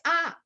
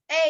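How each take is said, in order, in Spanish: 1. La letra se pronuncia como un 'ah' abierto. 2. La letra se pronuncia como un 'ay' deslizado. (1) "en inglés no es A" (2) "es A"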